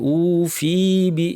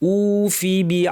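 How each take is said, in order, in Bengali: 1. f এর পরের স্বরধ্বনিটিকে টেনে দীর্ঘ করা হয়। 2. f এর পরের স্বরধ্বনিটি হ্রস্ব রাখা হয়। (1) "অনেকে ভুলে টেনে ফেলেন ... এরকম না" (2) "ফায়ের পরে টান নাই"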